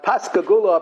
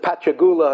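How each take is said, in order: First: The middle consonant is said as 'sk'. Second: The middle consonant is said as 'ch'. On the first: The speaker calls it right. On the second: The speaker calls it wrong.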